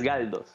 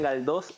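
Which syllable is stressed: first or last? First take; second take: first; last. First: The stress is on the first syllable. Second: The stress is on the last syllable. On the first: This is the name as it really is. The speaker calls it right. "Es Galdos" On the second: This is how other people usually say the name. The speaker calls it wrong. "Todos me decían Galdós, a pesar de que mi apellido no lleva, no lleva la tilde"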